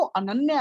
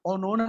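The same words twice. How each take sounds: First: Said in the usual way. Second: "ओनोना" with rounded o vowels; Bengali pronunciation. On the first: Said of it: "सही pronunciation वो अनन्या है". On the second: Shown as a demonstration. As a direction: show the Bengali "ओनोना" for Ananya. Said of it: "ओनोना नहीं".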